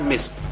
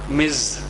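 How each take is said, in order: First: The word ends with a hissing s sound. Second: The word ends with a buzzing z sound. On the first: The speaker calls it wrong. "It is not Miss" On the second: The speaker calls it right. "It is Miz"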